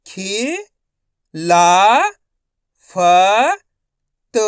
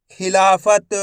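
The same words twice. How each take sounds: First: खि, ला, फ, त as separate sounds; long pause after each of खि, ला, फ, त; syllable by syllable. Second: खिलाफत joined up; खिलाफत in one unbroken piece; blended whole word. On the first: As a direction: sound out खिलाफत one syllable at a time. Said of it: "एक अक्षर का उच्चारण करके". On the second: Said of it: "तो मिलके बन जाएगा". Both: Shown as a demonstration.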